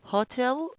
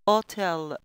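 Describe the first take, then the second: First: The word begins with an audible h sound. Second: The word begins without any h sound.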